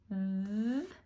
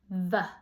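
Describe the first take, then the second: First: The consonant is said alone without a vowel. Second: The consonant is followed by a short vowel. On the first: The speaker calls it right. "And v instead of" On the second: The speaker calls it wrong. "instead of v"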